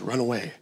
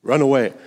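First: Hushed order. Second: Firm command. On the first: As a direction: quietly tell him to run away. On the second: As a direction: push him to run away. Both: Retold or imitated. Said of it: "looks him in the eye and says".

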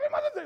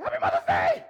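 First: Much higher, louder joyful shout; excited greeting. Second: Loud, high, bursting greeting; excited greeting. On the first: Pastor greeting the mothers, high joyful shout. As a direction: shout it with joy. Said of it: "Like, just like that". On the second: Pastor greeting the mothers, loud and thrilled. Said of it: "I did it just like that". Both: Retold or imitated.

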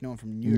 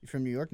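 First: "Newark" squashed into nearly one syllable; lazy pronunciation. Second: Said in the usual way. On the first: Shown as a demonstration. Co-host joking about being from Newark, lazy pronunciation. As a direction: say "Newark" clipped short, like a slurred New York. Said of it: "really lazy way to say New York". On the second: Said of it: "That's how New York is said".

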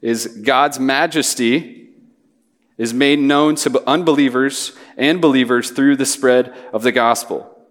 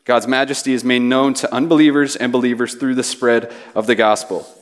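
First: Slow, spaced-out big idea for note-taking; a deliberate, slowed pace stating the main point; slow dictation. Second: Said in the usual way. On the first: Shown as a demonstration. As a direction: lay each phrase down slowly so they can write it. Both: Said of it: "Feel free to write this down".

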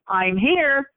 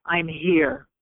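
First: Higher-pitched, falling announcement of arrival; lifted, reassuring announcement; announcing presence. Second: Simply be present, without getting emotional; steady presence. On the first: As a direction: let them know you've come, voice lifted. Announcing herself to crying victims. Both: Retold or imitated.

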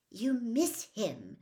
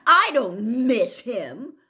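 First: Put-on slow, impatient girl's voice. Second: Slow, loud insistent denial. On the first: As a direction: press the point impatiently. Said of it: "Hermione said impatiently". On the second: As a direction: insist hard, almost shouting. Harry denies it loudly. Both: A narrator's reading.

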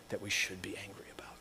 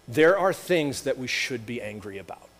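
First: Dramatic whisper. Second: Said in the usual way. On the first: Acted. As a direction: whisper it, much softer and slightly quicker. Repeats line, drops to whisper.

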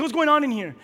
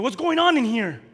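First: Higher, louder demand; bold challenge. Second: Loud, high demand; bold challenge. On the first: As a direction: confront the room boldly. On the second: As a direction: burst in and demand answers. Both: Retold or imitated. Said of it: "I went in with boldness".

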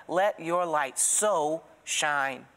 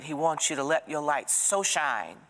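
First: "Let your light so shine" read very slowly, each word weighed, leaning on "so"; stress on so. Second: Said in the usual way. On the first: Shown as a demonstration. Congregation hears the verse, slow, leaning on "so". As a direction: draw out "so" in the scripture line. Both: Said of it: "It's the word so".

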